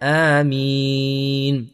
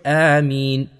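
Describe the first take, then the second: First: The final vowel is drawn out long. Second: The final vowel is kept short. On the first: "Or we can make it longer" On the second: "Or we can say it short"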